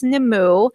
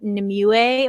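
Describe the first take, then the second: First: The name is said with two syllables. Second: The name is said with three syllables. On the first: The speaker calls it right. "So I think it's Nemu" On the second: The speaker calls it wrong. "I forever I pronounced it Nimue or something"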